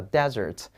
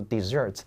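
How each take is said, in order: First: DESERT as DEZ-ert, first syllable strong; front-stressed "desert", second syllable weak. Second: DESSERT as dih-ZERT, last syllable strong; back-stressed "dessert", first syllable weak; stress on the second syllable. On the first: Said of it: "重音在前面". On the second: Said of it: "重音往后挪". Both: Shown as a demonstration.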